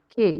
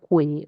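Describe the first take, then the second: First: It is said as ke, with no u sound. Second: It is said as kwe, with the u sounded. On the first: The speaker calls it right. "here it is K" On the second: The speaker calls it wrong. "it is not que"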